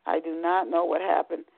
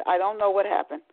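First: "not" spelled out and weighted; stress on not. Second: Said in the usual way. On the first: Real, not acted. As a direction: lean hard on "not".

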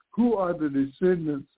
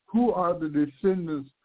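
The two takes are said the same way.

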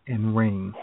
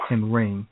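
No difference in how they are said.

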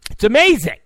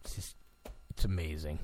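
First: Loud, high yelp; sudden shouted catchphrase; exclaiming. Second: Very quiet, low murmur; barely voiced, deep and soft; hushed. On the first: Acted. Shouted repeat of hushed catchphrase. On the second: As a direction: say it under your breath, low. Hushed aside before shouted catchphrase.

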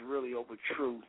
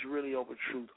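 The two takes are said the same way.

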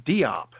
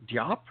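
First: "Diop" said dee-OP, falling; "Diop" with a clear dee, then op; Diop as two syllables. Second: "Diop" run together as dyop, rising; "Diop" squeezed into one beat, unsure; Diop as one syllable. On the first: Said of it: "I'm gonna mispronounce the last name". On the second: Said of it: "not sure if either one is correct". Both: Shown as a demonstration.

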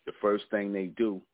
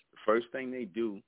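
No difference in how they are said.

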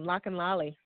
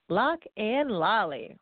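First: Said in the usual way. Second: Slow, relished LOCK AND LOLLY, each word apart; savored, drawn-out name. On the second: Shown as a demonstration. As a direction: stretch out Lock and Lolly for fun. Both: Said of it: "I just like saying that name".

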